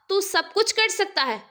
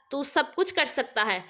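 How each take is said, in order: First: Higher, pleading cry to God; mother begging aloud; loud plea. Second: Said in the usual way. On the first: A narrator's reading. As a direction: call out to God for help. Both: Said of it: "زور سے کہا".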